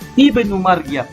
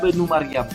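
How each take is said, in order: First: It starts fresh with an initial 'i' vowel. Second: It joins the previous word with no initial vowel. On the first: The reading starts again after a stop. "kalau ustaz berhenti, maka bacaan hamzah dibariskan" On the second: The reading continues from the previous word. "kalau ustaz baca dengan sambung, maka bacaan hamzah diabaikan"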